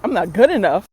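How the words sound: The voice rises at the end like a question. The thought is being doubted. "the statement turned into a question"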